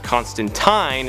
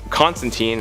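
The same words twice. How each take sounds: First: The last syllable rhymes with 'line'. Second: The last syllable rhymes with 'seen'. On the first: This is the form used in the original source. "technically it's pronounced Constantine in the original source material" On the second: This is the form used in most screen adaptations. "has become way more popular"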